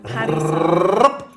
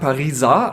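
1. Das R wird gerollt. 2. Das R ist weich, wie im Deutschen. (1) "Also das R muss man noch ein bisschen... Rollen" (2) "Viele sagen Pariser, als wenn es irgendwie"

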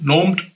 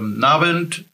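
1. Er wird in einer plattdeutschen Form gesagt. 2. Er wird in einer hochdeutschen Form gesagt. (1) "Das natürlich genauso" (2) "wie wir in Hochdeutsch ja auch sagen"

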